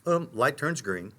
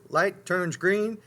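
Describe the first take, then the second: First: Said in the usual way. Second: "green" drawn out slowly, rising high; light turns green, stretched out. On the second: Shown as a demonstration. Preacher showing his habit at the light, slow and rising. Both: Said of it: "my nature is".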